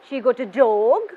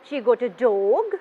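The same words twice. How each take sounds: First: The voice rises at the end. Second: The same.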